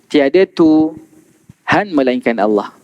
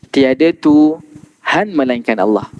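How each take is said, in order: The two takes are said the same way.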